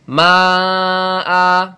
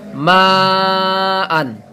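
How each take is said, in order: First: The word ends with a long a vowel. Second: The word ends with an n sound. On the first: The reader stops at this word. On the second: The reading goes on without stopping.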